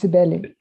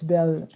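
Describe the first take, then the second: First: The name is said the Brazilian way. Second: The name is said the French way. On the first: "since I live in Brazil, it's Sibeli" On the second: "if it's pronounced as it should be in French"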